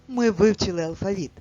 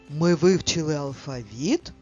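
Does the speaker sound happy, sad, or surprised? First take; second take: happy; surprised. First: The sentence is said in a joyful tone. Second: The sentence is said in a surprised tone. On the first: "Прочитаємо це речення радісно" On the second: "Прочитаємо речення із здивуванням"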